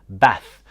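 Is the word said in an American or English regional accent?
English regional. It is said in a regional English accent.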